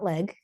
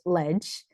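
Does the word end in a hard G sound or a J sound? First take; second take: hard G; J sound. First: It ends with a hard G sound. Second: It ends with a soft J sound. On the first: The speaker calls it wrong. "it is not leg" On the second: The speaker calls it right. "It is pronounced ledge"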